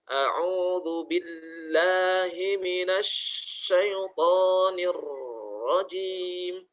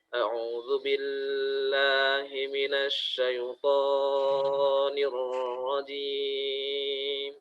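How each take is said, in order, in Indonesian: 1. Konsonan yang dobel ditahan terlalu lama. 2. Vokalnya dipanjangkan terlalu lama. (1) "seringkali menahan uh, huruf yang bertasydid" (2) "itu dengan bacaan yang terlalu panjang"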